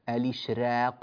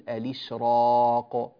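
First: The r sound is light. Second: The r sound is heavy and velarized. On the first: The speaker calls it wrong. "فلا نقول الإشراق" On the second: The speaker calls it right. "وإنما نقول الإشراق"

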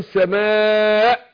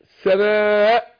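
No difference in how they are said.

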